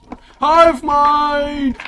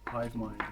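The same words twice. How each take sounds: First: High, loud, drawn-out name call; arena announcer. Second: Said in the usual way. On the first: Acted. Game master announcing a fighter's name, booming announcer. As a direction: stretch it out for the crowd. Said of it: "this announcement, by the way".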